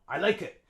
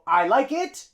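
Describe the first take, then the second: First: The vowel in 'it' is reduced to schwa. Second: The vowel in 'it' is fully pronounced. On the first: The speaker calls it right. "we use schwa for it" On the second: The speaker calls it wrong. "So I like it? No"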